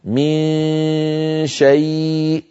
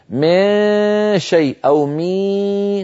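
First: من شيء with the n hidden in a long nasal hum, no y; slow, hummed من into شيء; correct ikhfa. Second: من شيء turned into mee, higher and drawn out; mock the over-strong مي with a y colour; exaggerated wrong من شيء; wrong ikhfa. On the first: Shown as a demonstration. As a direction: model reading of من شيء. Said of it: "النطق الصحيح هكذا". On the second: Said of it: "نقلبه برفع وسط اللسان".

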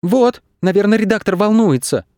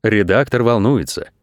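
First: Put-on high, childlike worried voice; high-pitched childish concern; worried youngsters. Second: Said in the usual way. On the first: A narrator's reading. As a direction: fret in a high kid's voice. Worried youngsters against the calm director. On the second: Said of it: "сказал директор".

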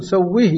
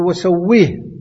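First: سويه with an i after the h, sawwihi; final ha vowelled. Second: وسويه ending on a still h, sawwih; final ha unvowelled. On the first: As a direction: let the ha in سويه open into a short i. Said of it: "لابد أن تسكن الهاء ولا تقول". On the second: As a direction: stop on the ha in وسويه with no vowel after it. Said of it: "لابد أن تسكن الهاء". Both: Shown as a demonstration.

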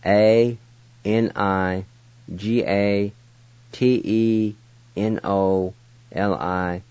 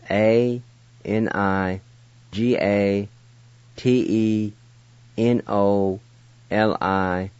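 No difference in how they are said.

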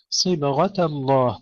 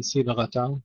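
First: "صبغة الله" recited slowly with a full, heavy sad. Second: "صبغة" with the sad thinned towards a sin; mistaken thin sad. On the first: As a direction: thicken the sad of "صبغة" though it has kasra. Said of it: "ننتبه هنا إلى تفخيم الصاد". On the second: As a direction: say "صبغة" with a light, thin first consonant. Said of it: "بعض الإخوة يقولون صبغة يرققونها". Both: Shown as a demonstration.

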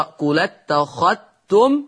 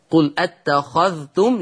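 First: قل اتخذتم run together as "qulattakhattum", ذ merged into ت; merged dhal. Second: Said in the usual way. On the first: Shown as a demonstration. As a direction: link قل اتخذتم and double the t for the ذ. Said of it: "يقرأ بالنقل". (قل اتخذتم بالنقل والإدغام) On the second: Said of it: "يقرأ".

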